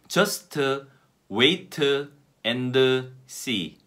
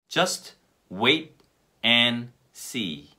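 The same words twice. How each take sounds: First: Extra vowels follow the final consonants of words. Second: The consonants end words without any extra vowels. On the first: The speaker calls it wrong. "우리나라 사람들이 어떤 식으로 실수를 많이 하냐 하면" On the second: The speaker calls it right. "으 발음을 다 빼볼까요?"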